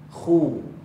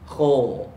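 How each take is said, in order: First: The lips round forward, giving a clear U vowel. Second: The lips barely round, giving an O-like vowel. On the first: The speaker calls it right. "dia muncung mulut ke depan, keluar bunyi U" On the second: The speaker calls it wrong. "dia muncung ala kadar... Keluar bunyi O"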